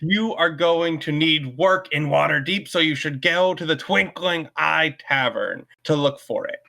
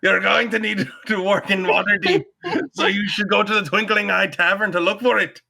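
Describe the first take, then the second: First: It is read in the speaker's plain voice. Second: It is read in a Scottish Londi impression.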